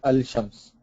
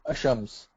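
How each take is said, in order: First: The lam is sounded before a single sh. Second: The lam is silent and the sh is single. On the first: "you cannot say al-shams" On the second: "You cannot say ashams"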